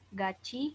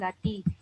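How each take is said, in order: First: The middle consonant sounds like ch. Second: The middle consonant sounds like t. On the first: The speaker calls it right. "dibaca gaci" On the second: The speaker calls it wrong. "bukan gati"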